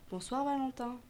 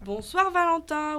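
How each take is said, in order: First: Voix de fée légère, un peu plus aiguë; petite fée. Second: Salut fort, lent et aigu de lutins; salut en chœur. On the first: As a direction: saluer en petite fée, sans forcer. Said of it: "La fée ... prit la parole". (petite voix de fée) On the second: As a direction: lancer le salut à pleine voix, en traînant, comme toute une bande. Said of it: "reprirent en chœur l'elfe et les lutins". (chœur de lutins, fort et traînant) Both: A narrator's reading.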